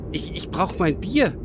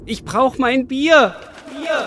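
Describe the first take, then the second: First: Said in the usual way. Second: Higher, louder, slow wail for beer; craving man crying out for beer; desperate cry. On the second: Acted. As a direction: beg the sky for your beer.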